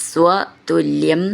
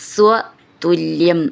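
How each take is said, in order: The two takes are said the same way.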